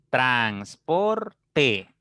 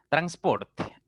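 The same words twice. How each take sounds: First: Split into syllables. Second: Said in the usual way. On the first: Shown as a demonstration. Teacher separates the word for students, "transporte" syllable by syllable. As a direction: sound out "transporte" in three drawn-out syllables. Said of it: "si yo separo esta palabra en". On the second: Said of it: "si yo separo esta palabra".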